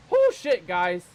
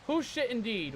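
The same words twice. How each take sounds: First: Loud relieved whoop; excited whoop. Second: Said in the usual way. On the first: Real, not acted. Relief after killing jaguar.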